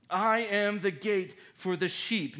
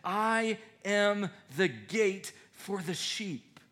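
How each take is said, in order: First: I stressed, steadier pace; second take, quicker and firmer; repeated with emphasis. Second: Slow, weighty scripture line; first take, drawn out and solemn; slow solemn reading. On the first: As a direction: say it again, firmer. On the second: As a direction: lay each word down slowly. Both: Shown as a demonstration.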